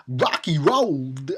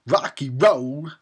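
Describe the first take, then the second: First: Slow, halting Walken cadence on Rocky Road; Christopher Walken impression. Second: Slow, drawn-out Walken-ish delivery; Christopher Walken. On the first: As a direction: drag it out like Walken. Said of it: "That was my impression". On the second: Real, not acted. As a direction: stretch each word like Walken. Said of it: "I sounded like Christopher Walken".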